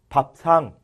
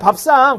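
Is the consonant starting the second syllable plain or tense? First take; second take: plain; tense. First: The second syllable starts with a plain s sound. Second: The second syllable starts with a tense s sound. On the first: The speaker calls it wrong. "밥상 이렇게 발음해요" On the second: The speaker calls it right. "그냥 밥상이야 밥상"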